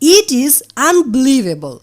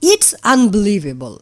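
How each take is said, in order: First: 'It is' is said as two full words. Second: 'It is' is shortened to one syllable.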